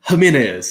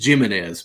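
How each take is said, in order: First: The name starts with an H sound. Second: The name starts with an English J sound. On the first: The speaker calls it right. "come on, Dad, it's Jimenez" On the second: The speaker calls it wrong. "my dad always pronounced it Jimenez because the J is that"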